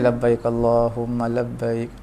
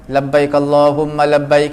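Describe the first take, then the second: First: It is said softly. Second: It is said loudly.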